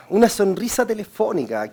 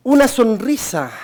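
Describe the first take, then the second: First: Said in the usual way. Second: "Una sonrisa" slow and louder, leaning on "Una"; stress on smile. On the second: Shown as a demonstration. Teacher stressing "Una sonrisa" to phone agents. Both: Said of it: "Qué importante es eso de la sonrisa".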